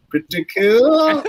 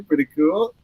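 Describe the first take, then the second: First: "Pretty cool" slow and pitched way up; slow, high, playful "Pretty cool"; drawn-out boast. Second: Said in the usual way. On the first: Real, not acted. Playful stretched repeat of the boast.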